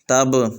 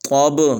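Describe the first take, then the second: First: The t sound is thin and light. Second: The t sound is thick and heavy. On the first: The speaker calls it wrong. "तब नहीं पढ़ना" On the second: The speaker calls it right. "ता को मोटा पढ़ना है"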